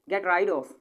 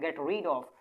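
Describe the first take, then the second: First: The vowel in rid sounds like ride. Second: The vowel in rid sounds like reed. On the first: The speaker calls it right. "राइड ही पढ़ेंगे इसे" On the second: The speaker calls it wrong. "Get रीड of ऐसे भी पढ़ सकते हैं"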